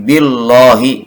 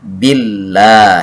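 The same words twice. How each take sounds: First: The l is pronounced heavy and thick. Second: The l is pronounced light and thin. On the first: The speaker calls it wrong. "Yang tidak boleh dipaksakan tafkhim" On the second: The speaker calls it right. "dibacanya menjadi tipis atau tarqiq"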